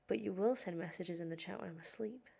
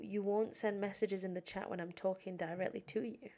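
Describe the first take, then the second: First: "will" punched as the contrast; stress on WILL. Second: "won't" stressed against its opposite. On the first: Streamer chiding viewers who chat during sleep streams, stress on "will". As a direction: hit "will" hard, then carry on evenly. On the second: Streamer chiding silent chat viewers, stress on "won't". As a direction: lean on "won't" to set up the contrast. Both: Real, not acted.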